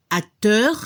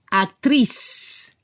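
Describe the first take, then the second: First: Acteur with a faintly heard final R; French acteur ending on a light R. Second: Actriz said as French actrice, ending in a long S; French-style actriz with silent final E; final S sounded. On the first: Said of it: "poco la R al final". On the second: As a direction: hiss the final S of actriz, no E after it. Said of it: "se debe escuchar la S". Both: Shown as a demonstration.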